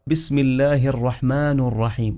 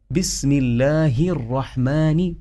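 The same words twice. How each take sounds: First: الرحمن ending in u instead of i; mistaken vowel ending. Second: الرحمن ending in a clear short i; kasra on الرحمن. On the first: Teacher showing how some people misread, الرحمن ending in -nu. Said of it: "البعض يقرأ". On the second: Teacher modelling the correct reading, الرحمن ending in -ni. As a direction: slowly say الرحمن with final -ni. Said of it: "وهي الرحمن بالكسرة". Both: Shown as a demonstration.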